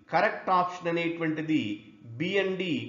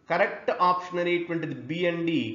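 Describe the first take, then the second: Both takes have the same delivery.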